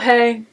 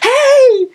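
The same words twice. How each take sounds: First: It is said flatly with low energy. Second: It is said brightly with high energy.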